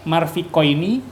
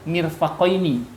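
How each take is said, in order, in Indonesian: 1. Suku kata pertama memiliki vokal a. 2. Suku kata pertama memiliki vokal i. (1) "mau baca marfik" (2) "yang lebih afsoh lebih fasihat adalah mirfakoini"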